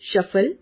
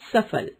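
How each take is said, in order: First: The word begins with an 'sh' sound. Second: The word begins with an 's' sound. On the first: The speaker calls it wrong. "अशुद्ध उच्चारण" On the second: The speaker calls it right. "शुद्ध उच्चारण"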